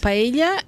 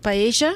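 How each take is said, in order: First: It is said with a Spain Spanish accent. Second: It is said with an Argentine Spanish accent. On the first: This is how it is said in Spain. "o paella é na Espanha" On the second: This is how it is said in Argentina. "mas o paella é para nós"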